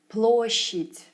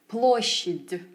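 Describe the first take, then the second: First: Said smoothly, with the final consonant devoiced. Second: Said carefully, with the final consonant kept voiced. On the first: The speaker calls it right. "it must have sounded more effortless and natural" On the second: The speaker calls it wrong. "I'd enunciate certain sounds"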